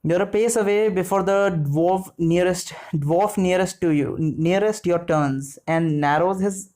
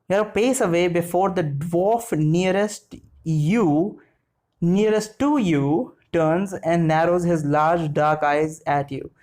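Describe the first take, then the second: First: Said in the usual way. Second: Slow, deliberate reading; careful rereading. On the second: Real, not acted. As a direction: pick through the sentence slowly to make sense of it. Rereads the confusing sentence carefully.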